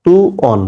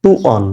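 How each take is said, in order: First: টু অন said again clearly higher, stressing the reading; higher modeling repeat of টু অন; repeated higher for emphasis. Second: Said in the usual way. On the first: Shown as a demonstration. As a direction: lift the voice on টু অন to model it. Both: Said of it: "কি হচ্ছে?".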